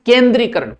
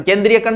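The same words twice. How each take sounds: First: केंद्रीकरण with री running straight into करण; correct form केंद्रीकरण. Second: केंद्रीयकरण with an extra य after री; wrong form केंद्रीयकरण. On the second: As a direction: slip a ya into केंद्रीयकरण. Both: Shown as a demonstration. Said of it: "केंद्रीयकरण नहीं".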